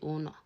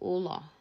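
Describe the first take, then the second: First: It is said with an n sound. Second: It is said with an l sound.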